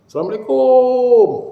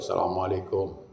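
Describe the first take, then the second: First: The greeting is stretched out and drawn long. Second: The greeting is said short and brisk. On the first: The speaker calls it wrong. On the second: The speaker calls it right. "Tak ada panjang sudah"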